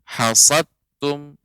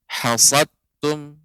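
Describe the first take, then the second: No difference in how they are said.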